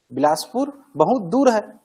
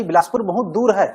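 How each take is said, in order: First: Slow, दूर stretched long and loud; drawn out emphasis. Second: Louder, stretching दूर with feeling; emotional demo. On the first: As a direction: drag out दूर to feel the distance. (धीरे, दूर को खींचकर) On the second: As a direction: show how far it feels. (भाव से, दूर पर ज़ोर) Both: Shown as a demonstration. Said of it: "मैं बोलूंगा ना कि भाई".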